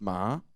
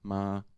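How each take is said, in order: First: The pitch rises through the syllable. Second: The pitch stays level at middle height. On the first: "it would be a raising tone" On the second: "It's like normal tone height"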